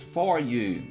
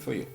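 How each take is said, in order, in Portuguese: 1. 'For' tem uma vogal plena e um R claro. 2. 'For' é reduzido a um som fraco 'fuh'. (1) "O brasileiro vai lá e for" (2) "vem um americano e fala assim"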